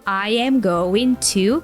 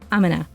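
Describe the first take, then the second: First: Every word is said fully and separately. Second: The words are squeezed into a short reduced form. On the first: "Instead of I am going to call you" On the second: "That's like a total reduction of this phrase"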